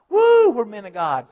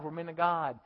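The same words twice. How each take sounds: First: Loud whooping crowd chant; mock crowd cheer. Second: Said in the usual way. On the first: Preacher voicing a stadium crowd cheering, whooping loudly.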